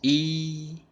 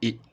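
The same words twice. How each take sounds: First: The syllable is held long on a high level pitch. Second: The syllable is short and ends quickly. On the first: "the first tone is E" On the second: "the light tone will be E, right? Short, and end it quickly"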